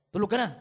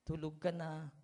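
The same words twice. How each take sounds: First: Much louder, sharp "Tulog ka na" order; married spouse's bark. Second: A sweetheart's tender "Tulog ka na"; gentle goodnight. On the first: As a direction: snap it like a fed-up spouse. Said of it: "Nung mag-asawa na". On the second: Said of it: "ang lulumanay yung magsagutan". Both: Retold or imitated.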